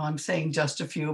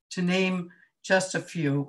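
First: The word "saying" given a wry extra push; stress on saying. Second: Said in the usual way. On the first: Shown as a demonstration. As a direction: lean on "saying", half-joking. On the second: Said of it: "well, I'm saying just a few".

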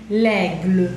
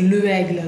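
First: "L'aigle" run together as one word, leg-luh; elided article. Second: "le aigle" with two vowels colliding; wrong unelided article. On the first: Teacher showing the apostrophe form, elided l'aigle. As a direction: join the L straight onto "aigle". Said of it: "sacamos y le ponemos la apóstrofe". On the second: Teacher showing what not to say, unelided le aigle. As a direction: sound "le" separately before "aigle". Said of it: "suena, suena feo". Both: Shown as a demonstration.

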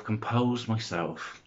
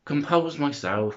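First: Slow calming breath. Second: Said in the usual way. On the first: Real, not acted. Vlogger out of breath, calming herself down slowly. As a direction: talk yourself calm, slow and quiet. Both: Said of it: "now I'm out of breath".

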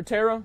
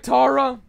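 First: "Tara" with an "eh" first vowel; "Tara" pronounced like "terra"; name variant TERR-a. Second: "Tara" with an open "ah" first vowel; "Tara" rhyming with "Sarah" in a British "ah" style; name variant TAH-ra. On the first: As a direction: say "Tara" as TAIR-uh. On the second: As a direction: say "Tara" as TAR-uh. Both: Shown as a demonstration. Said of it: "However you want me to pronounce it".

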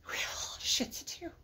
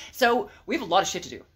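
First: Breathy mock despair whisper; whispered wail. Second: Said in the usual way. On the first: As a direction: whimper it under your breath. Repeats whispered with cry.

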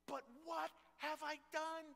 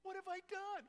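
First: High, whining plea; a desperate soldier begging to be let in; pleading David. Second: Much higher, rising whine of disbelief; a sharper, higher-pitched version of the same plea; begging David. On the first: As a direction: beg like a kid shut out of the game. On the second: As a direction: plead harder, almost a wail. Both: Acted. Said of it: "he is begging to fight".

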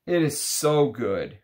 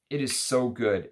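First: Drawn out like tasting something wonderful; savoring delight. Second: Said in the usual way. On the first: Real, not acted. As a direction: draw out the praise with pleasure. Savoring the fragrance after a pause.

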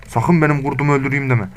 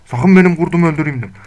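First: Said in the usual way. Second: Higher and louder, a stern warning. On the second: Real, not acted. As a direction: shout it at the wolf. Repeated warning to the wolf. (yüksek sesle sert uyarı)

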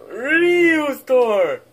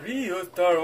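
First: Ryu's door! wailed high and loud; mock wail. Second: Said in the usual way. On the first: Shrek wails for his lost Ryu's door, a hammed-up loud cry. Kids mock-mourning a toy.

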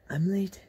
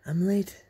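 Both takes have the same delivery.

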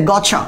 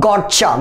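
First: "গচ্ছা" said as one smooth "gotcha"; short, joined "গচ্ছা"; correct blended pronunciation. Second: "গচ্ছা" broken into a hard "got" plus "cha"; over-articulate the T in "গচ্ছা", as got-cha; "গচ্ছা" with two separate, heavy halves; wrong split pronunciation. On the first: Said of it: "এর উচ্চারণটা কি হবে?". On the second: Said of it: "গচ্ছা বলা যাবে না কিন্তু". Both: Shown as a demonstration.

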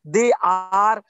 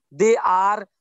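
No difference in how they are said.

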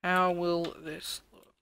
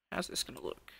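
First: Drawn out, slowly pondering; slow musing. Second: Breathy whisper to himself; whispered musing. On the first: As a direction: stretch the question out, wondering. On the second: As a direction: whisper the question, wondering. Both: Real, not acted. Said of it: "How is this going to look?".

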